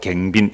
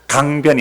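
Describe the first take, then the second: First: It is said in Gyeongsang dialect, 'gaengbin'. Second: It is said in standard form, 'gangbyeon'. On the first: "우리는 길가에 앉아서 이렇게 합니다" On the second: "강변이 아니고"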